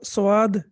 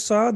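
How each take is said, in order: First: The word has a w glide after the first consonant. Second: The word has no w glide after the first consonant. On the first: The speaker calls it wrong. "Please इसको स्वाद नहीं पढ़ना" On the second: The speaker calls it right. "ये साद है"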